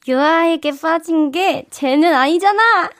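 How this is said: It is said in a lovable, cute tone.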